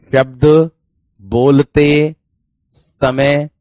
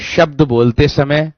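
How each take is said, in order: First: शब्द, बोलते, समय, each word apart with long pauses; word-by-word dictation. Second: Said in the usual way. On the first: Shown as a demonstration. Teacher dictating a one-line definition to students, word by word with pauses.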